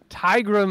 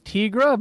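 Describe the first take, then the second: First: The first syllable sounds like 'tie'. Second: The first syllable does not sound like 'tie'. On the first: The speaker calls it right. "Tigra makes much more sense" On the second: The speaker calls it wrong. "I always read it as Tigra"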